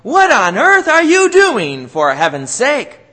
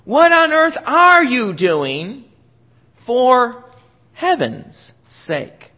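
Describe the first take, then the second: First: Exasperated parent shouting, high and loud; mock angry parent yell; scolding yell. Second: Slow, drawn out, leaning on "heaven's sake"; "heaven's" stressed, slow and reverent. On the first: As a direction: bark it like a fed-up parent. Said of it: "yelling and screaming at you". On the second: Shown as a demonstration. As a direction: pause before "heaven's sake" and weigh it. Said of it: "depends on where you put the accent".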